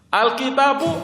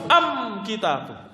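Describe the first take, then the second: First: The article is pronounced al. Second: The article is pronounced am. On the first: This is the common way of speaking. "Kalau kita kan al" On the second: This is how the Himyar tribe speaks. "Mereka alnya diganti am"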